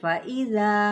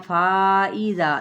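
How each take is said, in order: First: The hamza follows the short vowel at once. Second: The vowel before the hamza is drawn out. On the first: The speaker calls it right. "फौरी अदा कर" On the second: The speaker calls it wrong. "ये गलत है"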